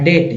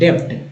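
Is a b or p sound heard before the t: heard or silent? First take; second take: silent; heard. First: No b sound is heard before the t. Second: A b-like sound is heard before the t. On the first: The speaker calls it right. "बी को silent रखा गया" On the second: The speaker calls it wrong. "डेप्ट पढ़ रहे थे"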